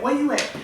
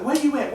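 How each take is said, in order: First: Repeated higher, urgent mock-frantic question; imitating frantic coworker. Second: Higher, urgent mock-frantic question, noticeably higher; imitating frantic coworker. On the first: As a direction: press again like a panicked coworker. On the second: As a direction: ask like a panicked coworker on the phone. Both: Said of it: "she frantic".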